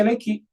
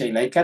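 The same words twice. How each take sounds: First: Ilaiki with a final "ki", pitched higher; feminine reading. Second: Ilaika with a clear final "ka"; masculine reading. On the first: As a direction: say ilaiki, ending on ki. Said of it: "dibaca ilaiki". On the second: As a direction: say ilaika, ending on ka. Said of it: "Harus dibaca ilaika". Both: Shown as a demonstration.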